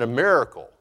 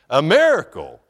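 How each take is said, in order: First: Said in the usual way. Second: Laughing, louder burst on "miracle"; delighted exclamation. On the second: Real, not acted. Delighted repeat straight after laughing.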